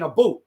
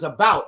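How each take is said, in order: First: It is said with a Canadian Ontario accent. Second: It is said with a Memphis Southern accent.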